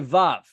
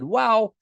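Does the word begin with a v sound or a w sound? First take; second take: v sound; w sound. First: The word begins with a v sound. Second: The word begins with a w sound. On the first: This is the modern pronunciation. "Today we say vav" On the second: This is the ancient pronunciation. "historically when the Bible was written, they probably said wow"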